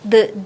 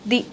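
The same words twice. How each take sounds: First: The word is said with a short 'uh' vowel. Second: The word is said with a long 'ee' vowel.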